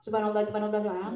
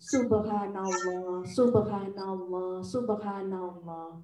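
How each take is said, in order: First: It is said fast and hurried. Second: It is said slowly and clearly.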